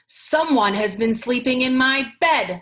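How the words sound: It is said in a great big voice.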